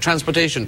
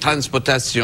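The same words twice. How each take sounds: First: It is said in an ordinary English accent. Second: It is said in a foreign accent.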